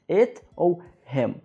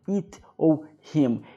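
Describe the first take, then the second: First: The vowel is short and lax, near 'e'. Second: The vowel is a tense 'ee' sound. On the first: The speaker calls it right. "um som um pouco diferente, até mais parecido com a letra E" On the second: The speaker calls it wrong. "eu não falo it ou him"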